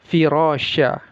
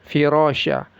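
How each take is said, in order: No difference in how they are said.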